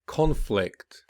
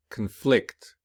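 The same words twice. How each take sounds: First: Noun form, lean on the start of "Conflict"; stress on first syllable. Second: "conflict" with weak start, strong second syllable; stress on second syllable. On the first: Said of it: "the noun will be". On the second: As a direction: verb form, hit the end of "conflict". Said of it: "whereas the verb will be". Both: Shown as a demonstration.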